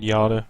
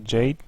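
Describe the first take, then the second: First: The name is pronounced the German way. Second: The name is pronounced the English way. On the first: The speaker calls it wrong. "I keep saying Jade. It's like the yada yada yada, the German pronunciation" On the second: The speaker calls it right. "but you actually say Jade"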